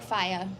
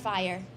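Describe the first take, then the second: First: The R at the end is dropped. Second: The R at the end is pronounced.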